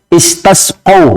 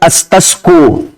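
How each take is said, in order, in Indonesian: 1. Vokal setelah q adalah 'a'. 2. Vokal setelah q adalah 'u'. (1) "qafnya di fathah ya" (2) "bukan di dhammah"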